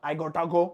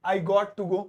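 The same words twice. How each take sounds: First: "I gotta go" with "gotta" run together; American short form. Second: "I got to go" with every word clear, "got to" split; full form. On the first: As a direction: blend "got to" into "gotta". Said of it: "ऐसे short है American". ("gotta" को मिलाकर American ढंग से) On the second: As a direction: say "got to" as two full words. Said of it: "इसे short में गोटा भी कहते हैं". ("got to" अलग-अलग साफ़ बोलकर) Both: Shown as a demonstration.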